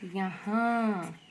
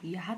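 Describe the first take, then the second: First: यहाँ slow, long nasalised last vowel; drawn-out nasal ending on यहाँ; correct, with nasal. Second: यहाँ as ya-haa, oral final vowel; denasalised यहाँ; wrong, without nasal. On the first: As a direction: stretch the हाँ of यहाँ through the nose. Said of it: "क्या होता है". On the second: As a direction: drop the nasal from the end of यहाँ. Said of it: "ये गलत है". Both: Shown as a demonstration.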